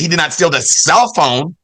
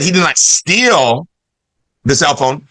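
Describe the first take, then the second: First: The stress falls on the word cell. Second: The stress falls on the word steal. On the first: He stole something else, the charger. "that means he stole the, oh, the charger" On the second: He only borrowed it. "that means he just borrowed it"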